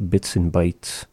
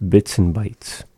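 Both takes have the same delivery.

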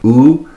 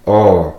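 First: Said in the usual way. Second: Long, louder "o"; "o" stretched to double length; dragged vowel. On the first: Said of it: "goes from the sound oo". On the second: Shown as a demonstration. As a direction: drag "o" out as one held vowel. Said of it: "So a dragged U".

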